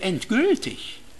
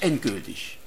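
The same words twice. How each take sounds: First: The stress falls on the second part, gültig. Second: The stress falls on the first part, end. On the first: Something holds true and stays valid. "oder kann ich nicht auch mal betonen" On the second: Something is over forever. "wir hören beim Wort Endgültigkeit so rasch raus"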